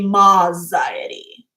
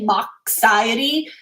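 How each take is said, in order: First: The X is not sounded like in fox. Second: The X is sounded like the x in fox. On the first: "or do you guys say Moxiety?" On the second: "I say Moxiety ... I pronounce the X like in Fox"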